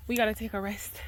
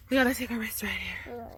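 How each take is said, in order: First: Said in the usual way. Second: Whisper. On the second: Real, not acted. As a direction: breathe it out in a whisper. Repeats line to toddler.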